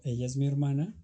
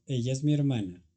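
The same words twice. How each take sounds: First: Hermana rising at the end as a question; same words, only the tune lifts into a question. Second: Said in the usual way. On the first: Shown as a demonstration. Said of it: "para la pregunta digo". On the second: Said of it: "Yo digo".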